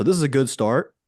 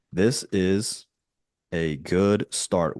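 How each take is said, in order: First: Said in the usual way. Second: Words stretched out with pauses; slow dictation. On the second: Real, not acted. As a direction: dictate slowly as you type. Dictating a prompt while typing.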